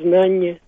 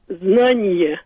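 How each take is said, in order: First: The yod sound is dropped. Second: The yod sound is clearly pronounced.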